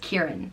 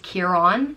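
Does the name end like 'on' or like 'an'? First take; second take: an; on. First: The second syllable sounds like 'an'. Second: The second syllable sounds like 'on'. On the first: The name is spelled without an accent mark. "or Kieran" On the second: The name is spelled with an accent mark. "it's pronounced Ciar-on"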